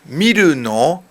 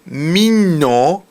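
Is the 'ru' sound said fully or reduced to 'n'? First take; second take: full; reduced. First: The 'ru' syllable is said in full. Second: The 'ru' syllable is squeezed into an 'n'. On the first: "It's really from 見るの" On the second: "it's been melted down"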